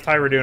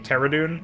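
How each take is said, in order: First: The name is said as the voiceovers say it. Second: The name is said as it is spelled. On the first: "That's how they their voiceovers pronounce it" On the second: "the way it's written, it should actually be"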